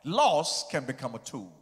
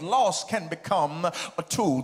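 First: The phrase is said quickly. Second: The phrase is said slowly. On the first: The speaker calls it wrong. "I said it too fast" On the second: The speaker calls it right. "I'll say it again"

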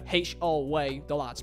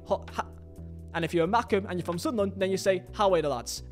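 First: It is said the Newcastle way, opening with 'ho'. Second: It is said the Sunderland way, without the 'ho'. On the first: The speaker is from Newcastle. "That's if you're from Newcastle, you say "Howay the lads" with a "H-O-way the lads,"" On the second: The speaker is from Sunderland. "if you're a Macam and you're from Sunderland, you say "Howay the lads,""

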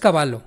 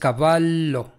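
First: The middle consonant is short, not prolonged. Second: The middle consonant is held and prolonged. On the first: The speaker calls it wrong. "no es caballo" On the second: The speaker calls it right. "es cavallo"

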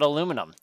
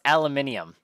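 First: The word is said the North American way. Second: The word is said the way used outside North America. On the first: The speaker calls it wrong. "I always thought aluminum. But I think we're pronouncing it wrong" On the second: The speaker calls it right. "Apparently it's pronounced aluminium"

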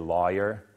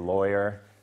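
First: It has a Southern American pronunciation. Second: It has a General American pronunciation. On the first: "Southerners say lawyer" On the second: "most Americans say lawyer"

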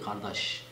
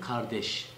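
First: It is said in a local regional dialect. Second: It is said in standard Turkish pronunciation. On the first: "Bizim orada ne şekilde söylüyor?" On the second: "Türkçe'de nasıl söylüyor?"

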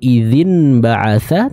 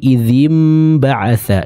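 First: The first word ends with an n sound. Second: The first word ends with an m sound. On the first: The speaker calls it wrong. "bukan idzin ba'atha" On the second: The speaker calls it right. "tapi idzim ba'atha"

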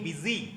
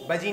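First: The first vowel sounds like 'i'. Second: The first vowel sounds like 'uh'. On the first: The speaker calls it right. "नहीं बिजी" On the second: The speaker calls it wrong. "बजी नहीं"

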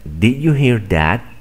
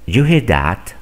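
First: Every word is pronounced fully and separately. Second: The words are reduced and run together. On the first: "No dicen" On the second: "Simplemente dicen"

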